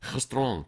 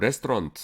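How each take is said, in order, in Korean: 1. 이 단어는 t 소리 없이 끝나요. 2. 마지막 t 소리는 발음해요. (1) "불어는 어떻게 되면 레스토랑 이렇게 됩니다" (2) "영어로는 레스토랑트 이렇게 나가는데"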